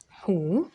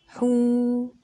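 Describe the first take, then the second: First: The vowel is short and clipped. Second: The vowel is drawn out long. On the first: "ضمة" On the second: "اسمع المد"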